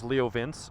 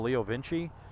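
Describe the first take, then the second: First: The name is pronounced the Southern US way. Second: The name is pronounced the Italian way. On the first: The speaker calls it wrong. "as Chris Moore says, ... that's how they pronounce it here in the South" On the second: The speaker calls it right. "it's Vinci! It's Italian"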